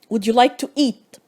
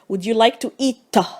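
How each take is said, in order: First: The final t has no puff of air. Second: The final t has a puff of air. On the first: The speaker calls it right. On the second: The speaker calls it wrong.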